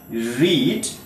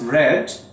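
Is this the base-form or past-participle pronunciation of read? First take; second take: base form; past participle. First: It uses the base-form pronunciation. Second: It uses the past-participle pronunciation. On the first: It is the present form of the verb. "read becomes" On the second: It is the third form of the verb. "in its third form, though the spelling remains the same, but pronunciation definitely changes"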